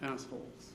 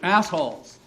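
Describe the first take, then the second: First: It is said in a plain, ordinary voice. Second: It is said in a screeching voice.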